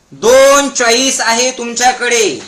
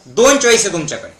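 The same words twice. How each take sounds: First: Slow, drawn-out proclamation; slow emphasis. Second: Brisk, matter-of-fact delivery; quick statement. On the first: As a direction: hammer the point home slowly. Hammers key point for crowd. (सावकाश, जोर देऊन) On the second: First states the key point. (भरभर, साधेपणाने) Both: Shown as a demonstration.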